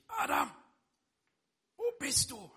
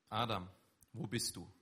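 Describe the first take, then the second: First: Loud, much higher, harsh shout of the name; accusing call. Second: Calm, seeking call, not accusing; gentle calling. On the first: God wrongly imagined yelling at Adam, loud and accusing. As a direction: bark it like an angry parent catching a child. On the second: God calling Adam gently from the garden, seeking not scolding. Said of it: "ganz bewusst diese Betonung". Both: Acted.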